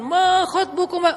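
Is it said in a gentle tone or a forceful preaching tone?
forceful preaching. It is said in a forceful, preaching tone.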